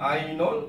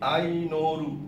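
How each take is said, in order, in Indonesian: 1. Nama itu berakhir dengan bunyi L biasa. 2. Nama itu berakhir dengan tambahan R dan vokal. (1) "kalau namanya ialah Ainol" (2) "jadi Ainoru"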